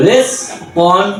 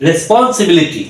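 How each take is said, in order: First: "রেসপন্সিবিলিটি" in widely spaced syllables; ভেঙে ভেঙে উচ্চারণ. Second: "রেসপন্সিবিলিটি" whole in one go; একবারে উচ্চারণ. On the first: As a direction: sound out "রেসপন্সিবিলিটি" one syllable at a time. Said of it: "syllable ভেঙে ভেঙে ভেঙে". ("রেসপন্সিবিলিটি" syllable ভেঙে ধীরে ধীরে) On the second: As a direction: run "রেসপন্সিবিলিটি" together without gaps. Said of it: "আমরা একবারে এটা". ("রেসপন্সিবিলিটি" একবারে টানা উচ্চারণ) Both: Shown as a demonstration.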